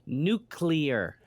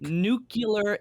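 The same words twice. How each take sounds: First: The middle sounds of the word are in normal order. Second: The middle sounds of the word are swapped. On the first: The speaker calls it right. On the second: The speaker calls it wrong.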